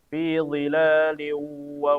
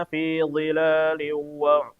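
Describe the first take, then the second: No difference in how they are said.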